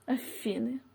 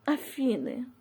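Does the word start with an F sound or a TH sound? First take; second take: F; F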